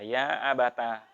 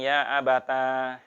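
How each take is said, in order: First: The final vowel is short. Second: The final vowel is drawn out long.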